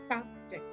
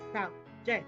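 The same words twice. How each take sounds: First: The stress is on the first syllable. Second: The stress is on the second syllable. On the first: The word is used as a noun. "I stressed on the first one by mentioning subject" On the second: The word is used as a verb. "And when I stress on the second, I will say subject"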